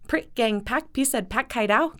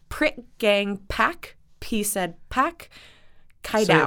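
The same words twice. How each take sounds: First: The names are said at a fast pace. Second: The names are said at a normal pace.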